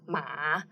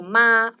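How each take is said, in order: First: The pitch dips low and then rises. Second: The pitch stays high and level. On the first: It means horse. "which is the third tone, ma, which means horse" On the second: It means mom. "first tone, means mom"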